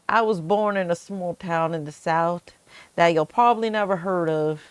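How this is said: It is said in a Southern American accent.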